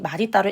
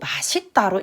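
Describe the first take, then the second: First: The middle consonant is pronounced as a d sound. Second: The middle consonant is pronounced as an s sound. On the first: This is the standard rule pronunciation. "많은 사람들이 맛있다로 읽지 않고" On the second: This is the everyday pronunciation, also allowed. "맛있다로 읽으니까 그러면 그거 현실 발음 고려해서 맛있다도 허용해"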